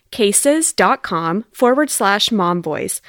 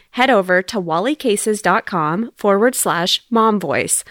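First: Slowly spelling out the web address; slow, clear repeat. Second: Said in the usual way. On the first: Shown as a demonstration. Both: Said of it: "That's Wally".

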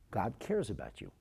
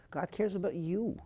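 First: Said in the usual way. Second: "God cares about you" lifted high with a rising end; fervent plea. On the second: Retold or imitated. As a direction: repeat "God cares about you" higher and more urgent. Physician pleads with suicidal girl.

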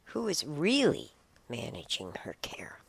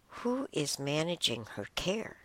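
First: Whispered, leaning hard on "really"; stress on really. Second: Said in the usual way. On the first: Shown as a demonstration. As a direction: hit the word "really" in a whisper. Rereading the question for emphasis.

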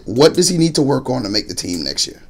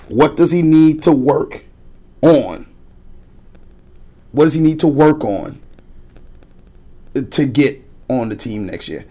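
First: Said in the usual way. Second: "What does he need to work on" drawn out slowly, word by word; slow down and lean on each word of "What does he need to work on"; slow deliberate question. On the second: Retold or imitated. Father repeating his question to coach, slow and deliberate. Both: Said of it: "He said".

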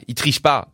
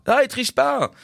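First: Said in the usual way. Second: Much higher, emphatic admiration; excited insistence. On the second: Real, not acted. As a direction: insist with delight that he doesn't cheat.

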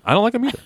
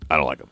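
First: Much higher voice; [name]'s reply. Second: Low, grumbling character voice; Chuck. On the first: Host agreeing with his sidekick Chuck, high-pitched reply. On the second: Chuck grumbling to the host about the DJ, low put-on voice. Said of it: "You sound like a poor man's". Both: Pretend.

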